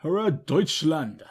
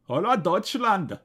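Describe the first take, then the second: First: Said in the usual way. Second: Hurrah Deutschland in a hammy German accent, HOLAH TOYTSHLAND. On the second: Shown as a demonstration. Redoing the title in a joking German accent. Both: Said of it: "That, that was my accent".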